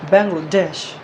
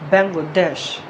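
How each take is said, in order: First: It is said the English way, final syllable stressed. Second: The same.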